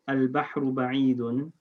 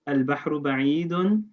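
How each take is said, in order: First: It is said as a plain statement. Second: It is said with a questioning inflection.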